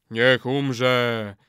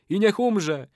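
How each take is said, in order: First: Chorus response. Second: High incanting call; ritual curse. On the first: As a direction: answer the curse in unison. Warriors echo in lower voice. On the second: Old man calls death on betrayer, incanting. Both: A narrator's reading.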